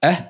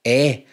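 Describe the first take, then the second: First: "eh" short and centred, as in Scottish six; short six vowel. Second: "eh" open and longer, as in sex; open sex vowel. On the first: YouTuber contrasting two vowels for viewers, short and careful. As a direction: say "eh" as a brief uh-like vowel. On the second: YouTuber contrasting two vowels for viewers, open and careful. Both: Shown as a demonstration. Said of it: "can tell the difference between eh".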